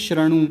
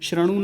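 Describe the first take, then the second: First: The first vowel is a short a. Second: The same.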